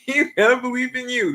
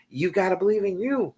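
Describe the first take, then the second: First: Higher, laughing as she says it; laughing encouragement. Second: Said in the usual way. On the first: Real, not acted. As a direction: cheer them on through a laugh. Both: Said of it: "repeated encouragement to viewer".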